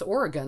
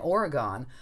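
First: Oregon is said the local way. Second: Oregon is said the non-local way. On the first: The speaker calls it right. "I moved to the West Coast, and it's Oregon" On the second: The speaker calls it wrong. "I grew up saying Oregon"

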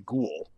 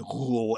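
First: The first sound is a plain hard g. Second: The first sound is a throaty, rasping g. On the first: The speaker calls it right. "I would say ghoul" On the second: The speaker calls it wrong. "it could be pronounced ghoul in Arabic, but that sounds sort of dumb. I would never say ghoul"

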